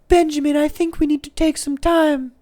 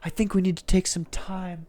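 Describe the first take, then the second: First: It is said in Alicia's kinda British voice. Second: It is said in a plain voice.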